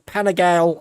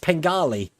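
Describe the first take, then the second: First: The middle 'i' is pronounced. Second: The middle 'i' is silent. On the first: The speaker calls it wrong. "I was calling it the Panigale R" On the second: The speaker calls it right. "it's pronounced Pengali ... Seems to have a silent I in it"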